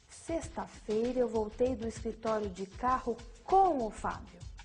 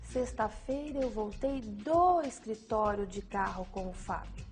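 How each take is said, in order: First: The stress falls on "com o Fábio". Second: The stress falls on "do escritório". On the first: It tells who came along. "A ênfase no com o Fábio indica a companhia" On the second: It tells where the return started. "A ênfase no do escritório indica o local da ação praticada"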